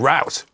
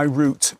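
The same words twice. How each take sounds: First: It is said in an American accent. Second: It is said in a non-American accent.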